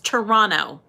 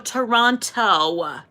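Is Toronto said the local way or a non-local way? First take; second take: local; non-local. First: It is pronounced the way locals say it. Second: It is pronounced the way outsiders say it. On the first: The speaker calls it right. "That's how the natives say it" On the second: The speaker calls it wrong. "I don't say no Toronto"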